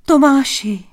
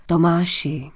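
First: High, loud cry of the name. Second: Name said low and restrained, falling; mild address. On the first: Princess seeing Tomáš back home, crying out. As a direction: call out in amazed joy. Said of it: "Vykřikli společně". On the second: King approaching Tomáš in the hall, mild address. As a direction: address him gently, without raising the voice. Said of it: "hlas měl najednou mírný a laskavý". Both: A narrator's reading.

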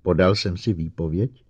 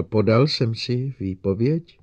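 First: Said in the usual way. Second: Slower, higher repeated question; a touch of doubt, slow and raised; slightly uncertain. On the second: A narrator's reading. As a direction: ask it again hesitantly, drawn out. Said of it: "trochu nejistě opakoval".

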